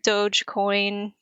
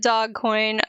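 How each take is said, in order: First: The first syllable sounds like dohj, with a soft ending. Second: The first syllable sounds like the word dog. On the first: The speaker calls it right. "it is Doge" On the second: The speaker calls it wrong. "I purposely mispronounce it dog"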